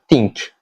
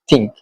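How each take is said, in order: First: It begins with a soft th sound. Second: It begins with a sharp dental t sound. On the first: "not uh" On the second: "he used a sharp uh, dental T. Uh, so it sounds more like think"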